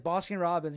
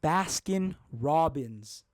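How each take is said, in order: First: The first vowel sounds like the one in 'boss'. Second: The first vowel sounds like the one in 'bass'. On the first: The speaker calls it wrong. "I didn't know I was saying it wrong" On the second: The speaker calls it right. "I'm gonna say it right"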